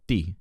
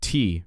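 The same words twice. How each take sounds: First: The T is softer, sounding closer to D. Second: The T is a crisp, English-style T sound. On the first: "in Italian, you go T, and it's more like it's closer to a D" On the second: "In English, we say T"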